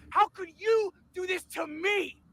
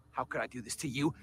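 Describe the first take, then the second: First: Higher, slow, hammered out; furious slow retort. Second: Quiet mocking echo. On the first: Acted. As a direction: spit each word back slowly.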